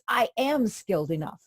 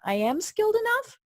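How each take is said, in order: First: It falls at the end, like a statement. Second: It rises at the end, like a question.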